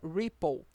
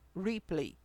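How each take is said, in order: First: The word sounds like ripple. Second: The word sounds like replay. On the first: The speaker calls it right. "o correto, a pronúncia seria ripple" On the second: The speaker calls it wrong. "Esse falhado aqui é o modo replay"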